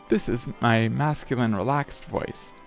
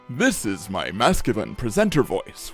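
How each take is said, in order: First: A fairly deep voice, kind of monotone. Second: A deep voice with lots of pitch variation.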